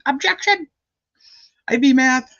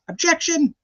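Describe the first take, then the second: First: Very high, punchy Southern "Objection!"; Diener impression. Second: High, sharp Southern-flavoured "Objection"; Diener impression. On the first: Repeating the Diener courtroom objection for chat, high Southern twang. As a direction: snap out an objection like a courtroom lawyer, with a Southern lilt. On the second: Imitating lawyer Diener objecting in court, high Southern twang. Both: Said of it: "That was my Diener impression".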